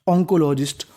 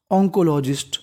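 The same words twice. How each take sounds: The two takes are said the same way.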